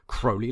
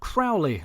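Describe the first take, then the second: First: The first vowel sounds like 'holy'. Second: The first vowel sounds like 'owl'. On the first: The speaker calls it right. "his name was pronounced Crowley like Holy" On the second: The speaker calls it wrong. "wrongly assumed it was pronounced Crowley, like Owly"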